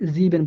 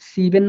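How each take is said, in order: First: The word begins with a buzzing z sound. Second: The word begins with a hissing s sound. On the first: The speaker calls it right. "জিবেন বলতেছি" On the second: The speaker calls it wrong. "সিবেন না বলে"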